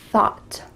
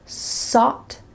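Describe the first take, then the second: First: The word begins with a TH sound. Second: The word begins with an S sound. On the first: The speaker calls it right. "make sure that your tongue is between your teeth" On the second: The speaker calls it wrong. "switching an S and a T H sound, sought instead of thought"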